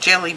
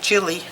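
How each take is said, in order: First: The first vowel sounds like the one in 'bell'. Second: The first vowel sounds like the one in 'bill'. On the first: This is the local way of saying the name. "Here in the South I, I call it Jelly Bean" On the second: This follows how the name is spelled. "it might be Jilly because it's spelled J I L L I"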